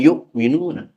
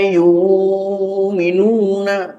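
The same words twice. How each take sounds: First: A glottal stop closes the first syllable. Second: The first syllable has a long u vowel. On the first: "bukan yu'minuna" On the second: "beliau membaca alladzina yu'minuna"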